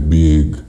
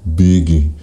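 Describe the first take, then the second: First: The word ends cleanly on the g consonant. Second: An extra vowel is added after the final g. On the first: The speaker calls it right. "em vez de dizer big" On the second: The speaker calls it wrong. "falar uma vogal a mais"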